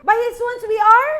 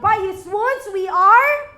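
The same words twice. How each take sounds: First: Higher, louder, rising prompt for the crowd; preacher pressing the congregation to answer; calling for response. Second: Slow, louder line left hanging on a rise; preacher leading the church into the verse; building proclamation. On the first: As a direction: throw the line out and demand they finish it. Repeats, urging congregation to answer. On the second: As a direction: lead the verse and leave it open for the crowd. Preacher starts scripture for response. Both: Acted.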